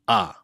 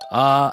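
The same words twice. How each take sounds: First: The syllable is said on a low pitch. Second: The syllable is said on a high pitch.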